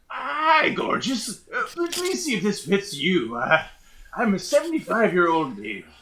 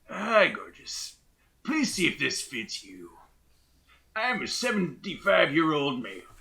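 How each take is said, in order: First: An old voice, sounding needy and desperate. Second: An old voice, calm, without desperation.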